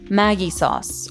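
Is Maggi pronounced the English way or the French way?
English. Maggi is pronounced in an English way.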